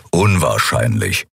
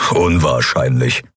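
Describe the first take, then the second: First: Much lower, slow gruff grumble; grumbled. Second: Lower, dismissive snort of a word. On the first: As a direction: rumble it with finality. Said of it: "brummte Keru". (tiefes, brummiges „unwahrscheinlich“) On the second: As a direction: brush it off with a huff. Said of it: "schnaubte Keru". (abschätziges Schnauben) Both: A narrator's reading.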